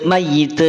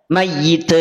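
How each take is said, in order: No difference in how they are said.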